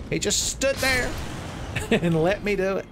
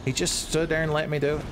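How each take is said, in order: First: Much higher, amazed, breaking into a laugh; can't believe your luck; incredulous laugh. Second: Said in the usual way. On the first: Real, not acted.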